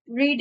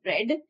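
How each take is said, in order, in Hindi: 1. इसमें वर्तमानकाल का उच्चारण है। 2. इसमें भूतकाल का उच्चारण है। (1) "Read is the first form" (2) "Second form of read is read"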